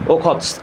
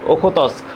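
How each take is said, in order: First: The syllables are run together into one. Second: The syllables are said separately and fully.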